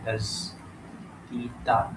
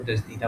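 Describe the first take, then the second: First: Very slow, softer دزدیدہ in separate syllables; sounded out slowly. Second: Said in the usual way. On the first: Shown as a demonstration. Sounding out the answer word.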